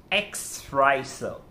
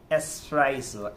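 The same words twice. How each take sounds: First: Slow "espresso" with an X, "eks-presso"; mispronounced espresso. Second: "espresso" ordered properly as "es-presso"; correct espresso. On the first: Teacher showing what to avoid, "espresso" slowly mispronounced with X. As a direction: draw out the slip in "espresso" as "ex-presso". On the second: Teacher modelling a Starbucks order, "espresso" pronounced with S. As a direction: keep "espresso" free of any K sound. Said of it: "you are gonna say". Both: Shown as a demonstration.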